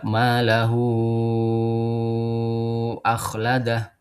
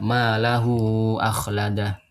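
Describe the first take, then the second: First: The vowel of hu is held very long. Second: The vowel of hu is held briefly. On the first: "taul munfasil ... paling panjang enam harokat" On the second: "dibacanya dua harokat saja"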